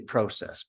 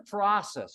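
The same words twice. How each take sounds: First: It is said with a Canadian 'pro' vowel. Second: It is said with an American 'prah' vowel.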